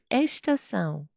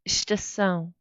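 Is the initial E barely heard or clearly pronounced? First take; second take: clearly pronounced; barely heard. First: The first E is fully and clearly pronounced. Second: The first E is very soft, almost silent. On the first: The speaker calls it wrong. "it sounds not Portuguese, even a little bit Spanish" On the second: The speaker calls it right. "the E is not very clearly pronounced"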